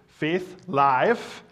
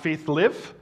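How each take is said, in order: First: Live is said with a long i, like five. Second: Live is said with a short i, like give. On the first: Faith is active and alive. The speaker calls it right. "that our faith needs to be active and alive" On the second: Faith is something you live out as a verb. The speaker calls it wrong. "Not Faith Live"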